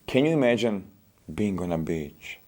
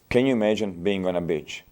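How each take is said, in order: First: The voice is soft, slow and soothing. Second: The voice is flat and unemotional. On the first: The listener is made to feel relaxed. The speaker calls it right. "You can make her feel like this as well. But it's not the words. It, it was my tonality" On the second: The listener is made to feel nothing. The speaker calls it wrong. "I'm not making you feel anything. See? Why? Because of my delivery"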